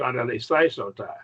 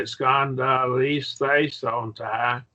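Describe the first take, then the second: First: Faster. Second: "Scandalise, they, son, ta" slow and measured, each part separate; slow sounding-out. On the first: Teacher showing a student the repeated word sped up, faster and joined. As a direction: rattle off "Scandalise, they, son, ta" as one word. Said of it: "and then get faster and faster". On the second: Teacher modelling the Greek word for a student, slow and deliberate. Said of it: "just what you do is you say". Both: Shown as a demonstration.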